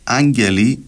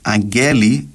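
First: The stress is on the first syllable. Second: The stress is on the middle syllable. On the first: The speaker calls it right. "αντί για" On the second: The speaker calls it wrong. "Θεωρεί λάθος εντός εισαγωγικών να πεις"

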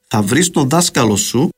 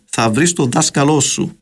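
First: The noun has only one stress, on the first syllable. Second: The noun has stresses on two different syllables. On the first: This is the natural Cypriot Standard Greek form. The speaker calls it right. "εν να πούμε πολλά πιο φυσικά" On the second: This is the Standard Modern Greek form. The speaker calls it wrong. "και όχι τόσο"

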